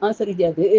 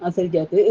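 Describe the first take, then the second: No difference in how they are said.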